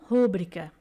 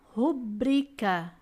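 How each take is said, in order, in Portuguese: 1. A sílaba tônica é a primeira. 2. A sílaba tônica é a segunda. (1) "e não rúbrica" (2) "O correto é rubrica"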